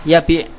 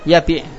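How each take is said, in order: No difference in how they are said.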